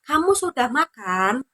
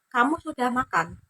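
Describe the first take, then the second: First: The voice rises at the end. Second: The voice does not rise at the end. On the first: It is a question. "Jika intonasinya naik" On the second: It is a statement. "Itu pernyataan"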